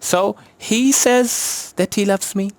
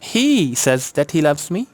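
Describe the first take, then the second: First: The stress falls on the word says. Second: The stress falls on the first word, he. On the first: He only says so, or believes so. "अब हम says" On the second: That particular person is the one who says it. "Stress है ही पे।"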